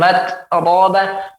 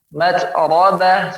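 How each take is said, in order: First: The word is split with a small break. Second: The word is joined smoothly without a break. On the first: The speaker calls it wrong. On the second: The speaker calls it right.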